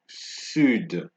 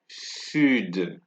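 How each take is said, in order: First: The final D sound is pronounced. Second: The same.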